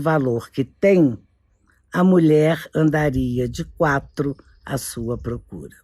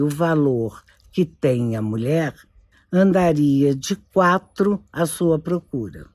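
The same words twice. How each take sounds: First: The pause comes after the word 'tem'. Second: The pause comes after the word 'mulher'. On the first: Women would chase men if men knew their own worth. "a mesma frase sem modificação nenhuma, apenas alterando a sua pontuação" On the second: Men would chase women if they knew women's worth. "se o homem soubesse o valor que tem a mulher, vírgula, andaria de quatro à sua procura"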